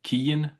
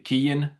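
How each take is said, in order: First: The name is said the Irish way. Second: The same.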